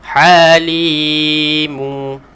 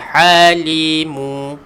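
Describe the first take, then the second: First: The second syllable's vowel is held long. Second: The second syllable's vowel is short. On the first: The speaker calls it right. "huruf sebelum tu kena panjang dua harokat" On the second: The speaker calls it wrong. "jangan baca halimu"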